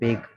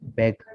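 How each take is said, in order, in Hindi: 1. स्वर लंबा है, जैसे 'cake' में। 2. स्वर छोटा है, जैसे 'cat' में। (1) "बाज लोग इसको पढ़ते हैं बेग। वो बेग नहीं होगा।" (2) "बट इसे कहते हैं बैग"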